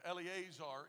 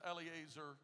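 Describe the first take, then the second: First: The name is pronounced carefully and fully. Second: The name is pronounced loosely and quickly. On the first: The speaker calls it right. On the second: The speaker calls it wrong.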